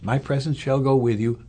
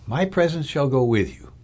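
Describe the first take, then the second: First: Said in the usual way. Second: Deliberately emphasize the word "presence"; stress on PRESENCE. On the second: Shown as a demonstration. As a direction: lean on "presence", letting the rest follow. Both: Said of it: "I deliberately emphasize the word presence".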